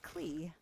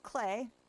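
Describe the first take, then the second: First: The name ends with an 'ee' vowel sound. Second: The name ends with an 'ay' vowel sound. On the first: The speaker calls it wrong. "I don't know how long I've been saying it Klee in my head" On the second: The speaker calls it right. "it's pronounced Clay"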